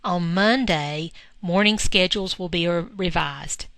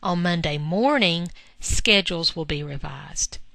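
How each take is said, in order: First: The pause comes right after "Monday". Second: The pause comes right after "morning".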